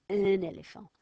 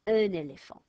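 First: Un éléphant linked, N carried over; liaison. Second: Un éléphant run together with an N link, loud; liaison. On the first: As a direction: join the words, N into éléphant. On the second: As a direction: link un into éléphant as one word. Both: Shown as a demonstration. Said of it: "I'm gonna go".

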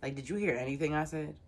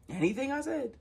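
First: Said in the usual way. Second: Exasperated disbelief. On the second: Real, not acted. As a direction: fling it back in disbelief, pitch shooting up. Exasperated repeat of own question.

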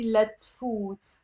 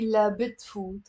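First: Letfut slowly, "la" joined straight onto "tfut"; dropped be. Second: La bitfut with the "bi" kept in; wrong form. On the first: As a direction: say letfut with no b, stretching the final "foot". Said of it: "I have to say". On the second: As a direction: say la bitfut as the mistake, keeping the b. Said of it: "I cannot say". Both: Shown as a demonstration.

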